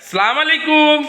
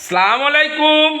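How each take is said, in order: No difference in how they are said.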